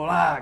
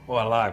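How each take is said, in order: First: The word is shouted very loudly. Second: The word is said at a soft, normal volume. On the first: The speaker calls it wrong. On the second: The speaker calls it right. "como você falou"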